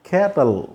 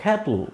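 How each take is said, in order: First: క్యాటల్ with an audible short "uh" before the L; schwa shown. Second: క్యాటిల్ with the vowel nearly dropped, straight into L; syllabic L. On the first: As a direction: sound out the weak vowel in క్యాటల్. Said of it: "ఆ పలికి పలకకుండా ఉంటుంది". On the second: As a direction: let the L carry the end of క్యాటిల్. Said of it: "ఎల్ పలుకుతుంది". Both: Shown as a demonstration.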